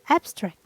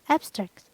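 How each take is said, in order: First: The stress is on the first syllable. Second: The stress is on the first syllable.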